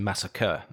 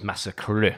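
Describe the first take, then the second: First: The word ends with an ordinary 'ker' sound. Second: The word ends with an 'ee' sound, rhyming with 'me'. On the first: The speaker calls it right. "Instead of saying massacre" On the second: The speaker calls it wrong. "slightly butcher the pronunciation"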